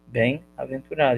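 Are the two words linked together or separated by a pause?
separated. A short pause separates the two words. The speaker calls it right.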